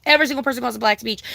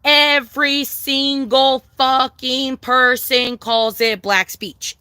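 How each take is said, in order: First: Said in the usual way. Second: Every word laid down slowly; slow emphasis. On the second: Real, not acted. Telling chat what it's called, slowly and firmly. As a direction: drag it out to hammer the point. Driving the point home.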